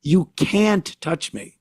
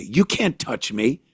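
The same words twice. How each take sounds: First: Slow, higher taunt leaning hard on "can't"; mocking thief stressing "can't". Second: Slow, quieter taunt of the thief; a touch of the mocking shoplifter; entitled thief. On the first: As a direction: stretch and hit "can't" like a dare. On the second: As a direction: drawl it out as a smug dare. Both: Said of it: "is what she says".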